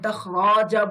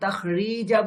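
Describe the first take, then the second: First: The vowel after the r is a. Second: The vowel after the r is i. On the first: "আমি তাখরাজা বলছি না" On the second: "আমি তাখরিজা বলছি না"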